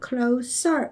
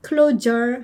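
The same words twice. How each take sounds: First: Closer with a voiceless S in the middle; correct adjective pronunciation. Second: Closer with a voiced Z in the middle; mispronunciation of closer. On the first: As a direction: say closer with a clean hissing S. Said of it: "closer 이러겠죠". (closer의 s를 무성음 S로 발음) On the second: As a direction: say closer wrongly, with a buzzing Z. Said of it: "closer 하지 마시고요". (closer의 s를 Z로 잘못 발음) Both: Shown as a demonstration.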